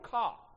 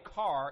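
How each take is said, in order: First: It is said in a Boston accent. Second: It is said in an Ohio accent.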